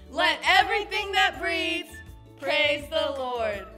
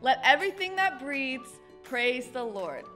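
First: It is said very loudly. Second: It is said at a normal volume.

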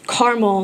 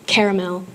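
First: It is said with a Midwestern accent. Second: It is said with a non-Midwestern accent. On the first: This is the speaker's own home pronunciation. The speaker calls it right. "I had a Midwestern accent, so I said things a little bit differently" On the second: This is how the new neighbors say it. The speaker calls it wrong. "not caramel"

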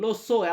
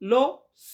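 First: The second word ends with a clear o vowel. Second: The second word ends without a final vowel. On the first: The speaker calls it right. "কথা বলার ক্ষেত্রে ম্যাক্সিমামই দেখেছি লো সো" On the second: The speaker calls it wrong. "স এমন করে উচ্চারণ করে না বা করতে হয় না"

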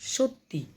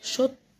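First: The word ends with an added i vowel. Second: The word ends without an added i vowel.

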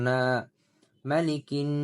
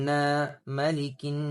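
The two takes are said the same way.

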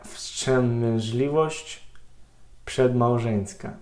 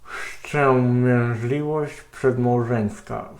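First: It is spoken normally with a free mouth. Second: It is spoken with a cork in the mouth.

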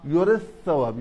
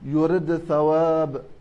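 First: The d sound merges into the following th. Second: The d sound is clearly pronounced before th. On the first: This is the other readers' tradition. "باقي القراء غير حرمي النصر" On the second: This is one reading tradition of the word. "إذن من يظهر هو حرمي النصر. إذن كيف يقرأها؟"

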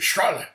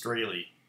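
First: It has a German pronunciation, said harshly. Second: It has an American pronunciation with long vowels. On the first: The speaker calls it right. "In German, it would be Strahle. So, you have to say it angry like that" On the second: The speaker calls it wrong. "long A, long E ... that's how us American morons pronounce it"

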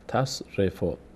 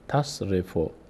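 The two takes are said the same way.

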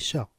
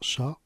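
First: The syllable has the Arabic fatha sound. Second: The syllable sounds like French 'cha'. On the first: The speaker calls it right. "on dit Sha" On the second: The speaker calls it wrong. "On ne dit pas Sha comme le français"

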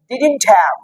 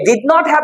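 First: Did and not are joined into one contracted word. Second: Did and not are said as two full words. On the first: "আমরা একসঙ্গে বলি" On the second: "এই ডিড নট have কে"

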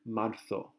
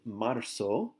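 First: The z is pronounced as a th sound. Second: The z is pronounced as an s sound. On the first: This is how people from Spain often say it. "sometimes tend to make the Z have a TH sound" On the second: This is the usual pronunciation in most countries. "the Z in Spanish makes an S sound"

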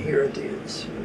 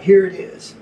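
First: It is said warmly, with heartfelt devotion. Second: It is said casually, like a routine handoff. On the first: The item is offered with love and devotion. The speaker calls it right. "It has to be with devotion" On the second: The item is simply being handed over. The speaker calls it wrong. "he was just doing it and like"

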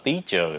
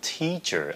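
First: The t is said without a puff of air. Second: The t is said with a puff of air. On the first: The speaker calls it wrong. "các bạn đừng có nói là teacher" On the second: The speaker calls it right. "nó là teacher, âm thờ"

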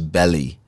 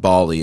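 First: The first vowel sounds like eh. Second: The first vowel sounds like ah. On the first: The speaker calls it right. "it was Belly" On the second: The speaker calls it wrong. "I heard it wasn't Bali"

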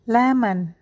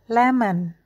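Both takes have the same delivery.

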